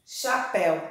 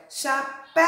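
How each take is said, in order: First: Said in the usual way. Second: "Chapéu" with a long, high PÉU; calling out the word. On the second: Shown as a demonstration. Teacher calls "Chapéu" so pupils hear the strong syllable, calling out. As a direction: call "Chapéu", stretching the last syllable. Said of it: "Qual foi a sílaba que mais se".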